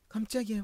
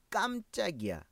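First: Quick, high startled exclamation; demonstrated startled cry, pitched up; acted shock. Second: Said in the usual way. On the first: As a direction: blurt it out as if caught off guard. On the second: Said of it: "کلمهٔ قمچق".

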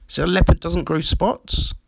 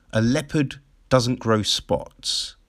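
First: "spots" lifted into a doubtful question. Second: Said in the usual way. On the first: Real, not acted. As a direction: turn it into a question, rising on "spots". Doubts the saying just stated.

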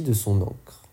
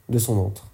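First: De son ancre with ancre said as /ɑ̃kʁ/, a K sound; de son ancre, the slip with a hard K; de son ancre, with the misread K; misread word. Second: De son antre with antre said as /ɑ̃tʁ/, a clear T; de son antre, fixing the slip with a T; de son antre, corrected with a T; corrected word. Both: Shown as a demonstration.

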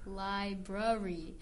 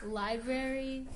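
First: "library" as LIE-bruh-ree, slow and lower; British library. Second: "Library" as LIE-brair-ee; full library. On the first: Host copying a British website, slow reduced library. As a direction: weaken the middle vowel of "library". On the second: Host comparing pronunciations, full-vowel Library. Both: Shown as a demonstration. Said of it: "I think this is a British website".

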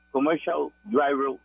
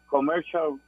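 First: "commercial driver" said slow and careful in English; proud, slow English "commercial driver"; English said slowly. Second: Said in the usual way. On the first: Shown as a demonstration. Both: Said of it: "en inglés".

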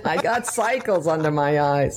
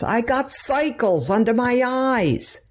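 First: Lighter Brooklyn lion line; Brooklyn accent. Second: High, slow Brooklyn whine of a cowardly lion; Cowardly Lion Brooklyn accent. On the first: Mother repeating the lion's line to explain it, in a lighter Brooklyn voice. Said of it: "He said". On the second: Mother imitating the Cowardly Lion for her daughter, in a high Brooklyn voice. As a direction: mimic the lion's Brooklyn drawl, pitched way up. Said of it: "the Cowardly Lion, when he goes". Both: Retold or imitated.

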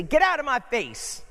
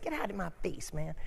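First: Sharp, loud and high; angry. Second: Quiet. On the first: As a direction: bark it at someone crowding you. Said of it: "you ever hear somebody say". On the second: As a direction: grumble it softly, half to yourself. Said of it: "somebody said". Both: Retold or imitated.

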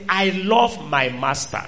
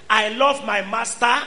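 First: "I love my master" said low and slowly, leaning on love; slow, stress on love. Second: Said in the usual way. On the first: Retold or imitated.

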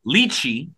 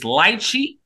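First: "lychee" said LEE-chee; second pronunciation variant. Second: "lychee" said LIE-chee; first pronunciation variant. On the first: Host offering the other guess, LEE-chee for "lychee". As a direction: say "lychee" with first syllable like "lee". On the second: Host unsure of the strain's name, LIE-chee for "lychee". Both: Shown as a demonstration. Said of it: "not knowing how to pronounce it".

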